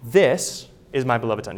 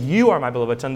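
First: THIS set apart with a pause after it; stress on THIS. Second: YOU punched, the rest running on; stress on YOU. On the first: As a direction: land on THIS as the correct word, then pause. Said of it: "The voice says". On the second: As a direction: hit YOU as the word being ruled out. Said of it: "The voice is not saying". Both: Shown as a demonstration.

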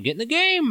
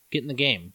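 First: Hammed-up rally cry; mock pep talk. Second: Said in the usual way. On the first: Scolding candy number one.

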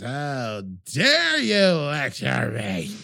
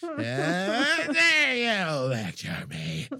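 First: Slow, drawn-out hammy outrage; over-dramatic outrage. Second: Very slow, stretched hammy outrage; over-dramatic. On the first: Acted. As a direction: chew the scenery on every word. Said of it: "chewing the scenery, way over dramatic". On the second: Shown as a demonstration. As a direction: overplay it like bad melodrama. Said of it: "doing everything way over dramatic".

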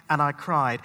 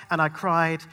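No difference in how they are said.

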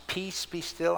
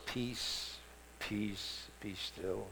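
First: Said in the usual way. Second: Soft and soothing, much softer; gentle. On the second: Shown as a demonstration. Preacher showing the gentle reading, soft and soothing. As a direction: breathe it out like a lullaby. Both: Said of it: "they're kinda nice words".

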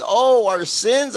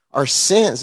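First: Put-on high, slow, wondering little-girl voice; imitating a toddler. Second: Said in the usual way. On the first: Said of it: "And she says". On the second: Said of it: "I said".

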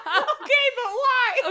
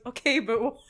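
First: High, loud squeal through laughter; laughing mock protest. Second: Said in the usual way. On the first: Mimicking the dad questioning his wife, laughing high protest. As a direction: crack up while demanding a reason.

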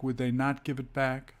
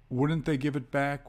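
First: Weight falls on "not"; emphasis on NOT. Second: Said in the usual way. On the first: Shown as a demonstration. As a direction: stress "not" after "they". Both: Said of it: "the emphasis is placed after the subject".

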